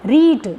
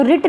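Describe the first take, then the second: First: रीट with a long ee; long vowel. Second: रिट with a quick short i; wrong short vowel. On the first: Teacher corrects to the right form, रीट with long ee. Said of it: "ये बड़ी ई को denote कर रही है". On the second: Teacher shows students the wrong form, रिट with short i. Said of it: "रिट नहीं होता ना". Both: Shown as a demonstration.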